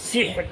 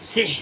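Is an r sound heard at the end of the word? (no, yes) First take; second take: yes; no. First: The word ends with a clear final r sound. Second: The word ends without a final r sound. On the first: The speaker calls it right. "শেষে রটা উচ্চারণ হতে হবে" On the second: The speaker calls it wrong. "সিহ বললে হবে না"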